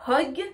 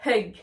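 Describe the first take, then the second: First: Hug said "hog" for repeating; rounded o in hug; O vowel. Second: Hug with "eu", falling; uh vowel in hug, not o. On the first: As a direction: lead learners with hug as hog. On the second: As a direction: lead learners with English hug. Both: Shown as a demonstration. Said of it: "on va prononcer les mots en même temps".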